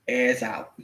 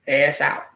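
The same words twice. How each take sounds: First: "Ass out" whispered, breathless and soft; whispered repeat. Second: Said in the usual way. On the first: Shown as a demonstration.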